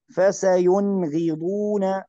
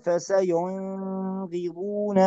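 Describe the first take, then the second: First: Short clear ن in "فسينغضون"; correct clear nun. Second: Long hum on the first ن of "فسينغضون"; wrong held nun. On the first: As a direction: go straight from ن to غ in "فسينغضون". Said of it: "ما نقول فسينغضون". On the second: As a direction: draw out the N before غ in "فسينغضون". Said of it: "ما نقول". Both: Shown as a demonstration.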